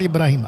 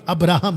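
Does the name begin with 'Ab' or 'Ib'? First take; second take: Ib; Ab. First: The name begins with 'Ib' and ends 'rahim'. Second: The name begins with 'Ab' and ends 'raham'. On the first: The speaker calls it wrong. "ये मुस्लिम pronunciation है" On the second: The speaker calls it right. "Jewish pronunciation"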